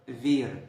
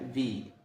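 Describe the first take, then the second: First: The word ends with a clear r sound. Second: The word ends on the vowel, with no r. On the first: This is the form taught to new learners. "في الأول خالص أول ما بتتعلم لغة" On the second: This is how natives say it in fast speech. "لما بيجوا يتكلموا بسرعة... حرف الإغ اللي في الآخر ده ما بيتنطقش"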